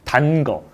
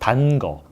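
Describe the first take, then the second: No difference in how they are said.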